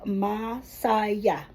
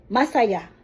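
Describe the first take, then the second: First: "masaya" drawn out slowly in separate syllables. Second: "Masaya" said briskly as one word; faster, joined up. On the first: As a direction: say "masaya" slowly so a learner hears each syllable. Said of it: "make it slowly so that". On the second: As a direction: run the syllables of "Masaya" straight through. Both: Shown as a demonstration.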